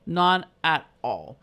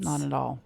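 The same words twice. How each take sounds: First: "None at all" drawn out slow and louder; slow emphatic echo. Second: Said in the usual way. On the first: Real, not acted. Mother agreeing with her friend, slow and emphatic. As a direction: stretch each word, louder, to insist.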